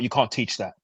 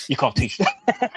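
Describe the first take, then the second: First: Said in the usual way. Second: Each word drawn out slow; slow mock emphasis. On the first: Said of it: "repeated mocking line". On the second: Mocking a fighter's loyalty speech, said slowly. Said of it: "slow mock emphasis".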